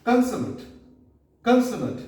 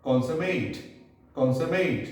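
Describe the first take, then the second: First: Consummate as KUN-suh-mut, high start and falling; adjective pronunciation. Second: Consummate as KON-suh-mate; verb pronunciation. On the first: Teacher repeats for listeners, consummate ending in -mut. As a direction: hit the first syllable of consummate, short weak -mut. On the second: Teacher contrasts the verb form, consummate ending in -mate. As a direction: end consummate on a full -mate. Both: Shown as a demonstration. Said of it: "As a verb".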